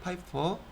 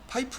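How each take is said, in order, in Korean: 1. 이 단어는 둥근 'po' 음절로 끝나요. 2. 이 단어는 짧은 'peu' 음절로 끝나요. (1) "파이퍼라고 불러요" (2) "파이프 아니에요"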